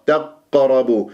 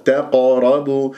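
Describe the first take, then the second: First: تقربوا with the qaf held shut, no bounce; stopping on the qaf. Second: تقربوا with a quick echoing release on ق; bounced qaf. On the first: Teacher shows students the mistake, qaf stuck at its articulation point. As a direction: halt on the ق of تقربوا. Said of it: "هكذا وقفت على المخرج". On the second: Teacher shows the right qalqala, qaf bounced. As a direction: strike the qaf in تقربوا and let go. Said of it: "إذا كيف؟". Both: Shown as a demonstration.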